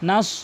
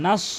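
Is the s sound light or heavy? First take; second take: heavy; heavy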